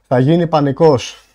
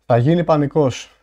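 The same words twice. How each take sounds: The two takes are said the same way.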